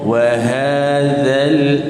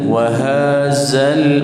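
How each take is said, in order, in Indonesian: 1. Konsonannya bunyi 'dh' yang lembut. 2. Konsonannya bunyi 'z' yang berdengung. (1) "zal dibaca dengan nipis" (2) "jangan sampai wahazal wahazal, maka salah"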